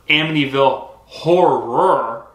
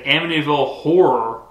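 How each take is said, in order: First: The word horror is said clearly and distinctly. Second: The word horror is mumbled and blurred. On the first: It names the actual movie. The speaker calls it right. "which is the actual movie" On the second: It sounds like a different, rude word. The speaker calls it wrong. "I have a lazy tongue, like I mumble a lot"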